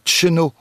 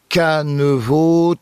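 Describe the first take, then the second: First: A short two-syllable form with an initial ch sound. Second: Three syllables starting with k and ending in o. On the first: "Dans le centre-Bretagne, on entend un tcheno" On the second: "Sur la côte ici, on entendra un canevo"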